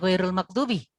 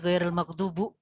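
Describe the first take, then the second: First: The final vowel of the last word is i. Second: The final vowel of the last word is u. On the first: The speaker calls it right. "bukannya ghairul maghdubi" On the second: The speaker calls it wrong. "tapi ghairul maghdubu alaihim misalnya"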